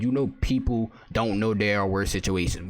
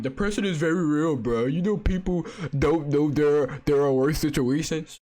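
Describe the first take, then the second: First: Said in the usual way. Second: Slow, higher, whiny mock of the comment; mocking a commenter. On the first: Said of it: "she just said". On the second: Reading a critic's comment aloud in a slow, mocking whine. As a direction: drag it out like a sneering parody of the commenter. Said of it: "Oh, look at the comment".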